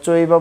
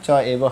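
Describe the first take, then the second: First: The two words are fused into one. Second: The two words are said separately. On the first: "আমরা চৈব বললে হবে" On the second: "যদি সংস্কৃত ভাঙানো হয় চ এব হয়"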